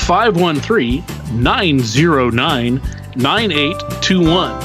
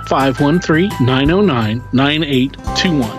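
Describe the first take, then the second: First: It is said in a radio announcer voice. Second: It is said in his normal voice.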